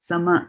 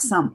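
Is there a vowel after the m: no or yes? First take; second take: yes; no. First: A clear vowel follows the m. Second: It ends on the m with no vowel after. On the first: The speaker calls it right. "It is full some, right? Sama" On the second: The speaker calls it wrong. "It is not some. If it was some, then it would be a half m"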